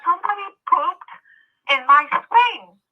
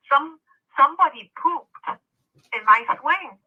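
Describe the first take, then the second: First: Put-on higher childlike voice, slowing right down on swing; little boy voice, repeated. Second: Put-on a higher, childlike voice; little boy voice. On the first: Repeats boy's line for effect. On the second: Retelling the sobbing boy at the park, childlike voice. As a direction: speak it like a small upset kid.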